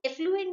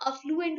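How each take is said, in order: First: "एफ्लुएंट" with eh at the start; wrong first vowel. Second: "अफ्लुएंट" with uh at the start; correct first vowel. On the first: Teacher corrects a common mistake, showing "एफ्लुएंट" with eh. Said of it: "एफ्लुएंट नहीं होता". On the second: Teacher corrects a common mistake, showing "अफ्लुएंट" with uh. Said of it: "वहाँ अफ्लुएंट होता है". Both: Shown as a demonstration.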